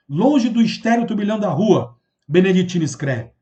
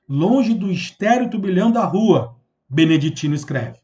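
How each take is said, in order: First: Said in the usual way. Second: "Longe do estéril turbilhão da rua" devagar, pausa na vírgula, "Beneditino escreve" mais grave; leitura com pausa. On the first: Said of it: "Vou ler o poema, preste atenção". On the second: Shown as a demonstration. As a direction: ler o verso pausado, parando depois de "rua" e baixando o tom em "Beneditino escreve". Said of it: "Você para, porque tem uma pausa". (leitura atenta e pausada, com parada em "rua")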